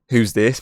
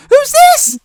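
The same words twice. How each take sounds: First: Said in the usual way. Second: Very high squeaky voice, louder. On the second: Retold or imitated. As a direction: squeak it like a voice breaking. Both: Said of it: "in that really, like, squeaky ass voice".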